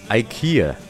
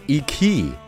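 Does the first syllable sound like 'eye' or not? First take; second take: eye; not eye. First: The first syllable sounds like 'eye'. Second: The first syllable does not sound like 'eye'. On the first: The speaker calls it right. "真正的读音应该是IKEA。那前面的字母I 其实就是跟iPhone 的I 是一样的发音的" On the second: The speaker calls it wrong. "甚至有些人还会读成IKEA。那很明显，以上都是错的"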